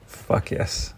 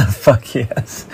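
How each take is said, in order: First: Breathless whispered "Fuck yes"; hushed private yes. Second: Laughing out a delighted "Fuck yes"; gleeful laughing yes; laughing cheer. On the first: Repeats cheer under his breath. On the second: Excited cheer about asteroid fields. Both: Real, not acted.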